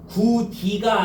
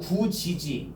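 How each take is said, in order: First: The second syllable begins with a 'd' sound. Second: The second syllable begins with a 'j' sound. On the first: The speaker calls it wrong. "구디가 아니고" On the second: The speaker calls it right.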